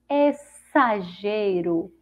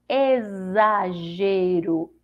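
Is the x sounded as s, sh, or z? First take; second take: s; z. First: The x is pronounced as an s sound. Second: The x is pronounced as a z sound. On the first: "se for com som de si" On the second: "Com som de Z"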